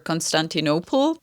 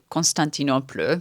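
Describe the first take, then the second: First: The name is pronounced the English way. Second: The name is pronounced the French way. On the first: "I'm certain that's the name in English" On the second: "I don't know why I pronounce it in French"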